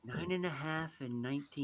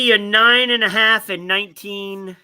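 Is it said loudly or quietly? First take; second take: quietly; loudly. First: It is said quietly. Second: It is said loudly.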